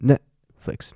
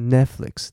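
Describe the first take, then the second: First: The t is held with a stopped breath. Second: The t sound is left out entirely. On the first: The speaker calls it right. "它是Netflix，你要用力" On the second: The speaker calls it wrong. "它不是Netflix"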